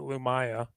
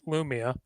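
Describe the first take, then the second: First: The middle syllable sounds like 'eye'. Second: The middle syllable sounds like 'ee'. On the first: This is how the audiobooks say it. "if you listen to the audio books, they pronounce it Lumaya" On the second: This is how most people say it. "most people pronounce it Lumia"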